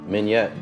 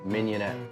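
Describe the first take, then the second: First: The word is said with two syllables. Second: The word is said with three syllables. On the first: The speaker calls it wrong. "I always thought it was mignette" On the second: The speaker calls it right. "that is the proper pronunciation"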